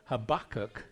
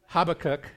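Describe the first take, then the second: First: The stress is on the second syllable. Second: The stress is on the first syllable. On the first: "the emphasis is on the second syllable" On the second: "one of them is Habakkuk"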